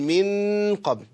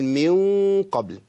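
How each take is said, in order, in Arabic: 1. يُنطق صوت النون كاملاً وواضحاً. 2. النون مخفية، دون التصاق كامل للسان. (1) "لو لمس لساني هقول من قبل، كده انا اظهرت النون" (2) "وطرف لساني يرتفع الى قرب مخرج النون، اقول من قبل"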